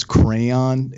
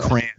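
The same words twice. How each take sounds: First: "crayon" in two syllables, "cray-on"; common pronunciation. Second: "crayon" squashed into one syllable, "cran"; own regional pronunciation. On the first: Host showing how people say it, "crayon" as "cray-on". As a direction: sound out both vowels in "crayon". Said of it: "the way people pronounce crayon". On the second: Marylander admitting his own way, "crayon" said as "cran". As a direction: say "crayon" to rhyme with "fan". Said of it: "I say crayon". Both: Shown as a demonstration.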